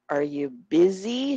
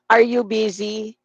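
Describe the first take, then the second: First: Slow demo leaning on "busy"; soft words, stressed BUSY. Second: "Are you busy" all equally strong; every word loud. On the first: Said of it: "Kapag may mahina". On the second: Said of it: "Etong tunog ng malakas lahat". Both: Shown as a demonstration.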